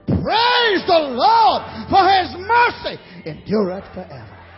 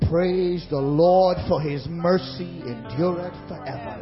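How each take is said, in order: First: It is said loudly. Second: It is said at normal volume.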